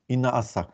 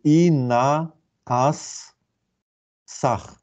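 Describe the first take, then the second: First: Said in the usual way. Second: Very slow, drawn-out syllables with gaps between them. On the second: Shown as a demonstration. Lecturer deciphering cuneiform signs for students, syllable by syllable. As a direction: sound out "i na as sach" sign by sign.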